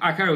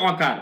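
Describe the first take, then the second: First: The first vowel sounds like 'ah'. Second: The first vowel sounds like 'oh'. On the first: The speaker calls it right. "আসলে আকার উচ্চারণ হবে" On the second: The speaker calls it wrong. "আমরা বলি অকার"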